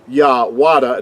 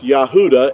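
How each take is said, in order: First: The middle has a W consonant sound. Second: The middle has a plain U vowel sound. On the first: The speaker calls it wrong. "See with the W, it's not Wa Yahwada" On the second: The speaker calls it right. "it's Yahuda"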